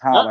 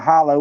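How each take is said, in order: First: The word ends with an 'er' sound. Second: The word ends with an 'oh' sound. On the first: The speaker calls it right. "It's holler" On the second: The speaker calls it wrong. "I've heard people call it hollow. Well, that ain't how you say it"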